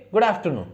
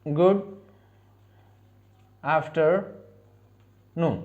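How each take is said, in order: First: Quick recap. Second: Very slow, drawn-out model pronunciation; slow demo. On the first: Teacher repeats the greeting quickly after modelling it. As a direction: rattle off "गुड afternoon" at normal speed. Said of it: "ठीक है, गुड afternoon". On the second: Teacher models the greeting slowly for learners to repeat. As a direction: stretch "गुड afternoon" out syllable by syllable, softly. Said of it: "दोपहर को हम क्या बोलेंगे?". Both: Shown as a demonstration.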